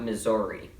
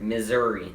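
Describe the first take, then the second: First: A vowel in the word sounds like an O. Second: The vowels sound normal, with no O sound. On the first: The speaker calls it wrong. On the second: The speaker calls it right.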